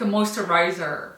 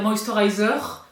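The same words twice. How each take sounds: First: English word in an American accent; "moisturizer" with attempted American pronunciation. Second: English word in a French accent; "moisturizer" pronounced the French way. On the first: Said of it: "c'est l'accent américain". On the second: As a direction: say moisturizer with cute French pronunciation. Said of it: "c'est mignon de parler avec l'accent français". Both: Shown as a demonstration.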